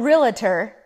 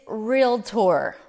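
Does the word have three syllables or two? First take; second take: three; two. First: The word is said with three syllables. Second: The word is said with two syllables. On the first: The speaker calls it wrong. "It's not Realtor. You wouldn't say docator" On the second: The speaker calls it right. "it's Realtor. ... you'd say doctor"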